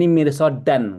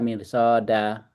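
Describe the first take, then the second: First: The word ends with an n sound. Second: The word ends on a vowel, without n. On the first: "Ini mirsodan kan tanda ini" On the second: "kalau terakhir dibaca mirsoda"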